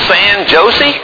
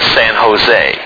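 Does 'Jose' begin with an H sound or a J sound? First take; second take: J sound; H sound. First: Jose begins with a hard J sound. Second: Jose begins with an H sound. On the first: The speaker calls it wrong. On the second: The speaker calls it right.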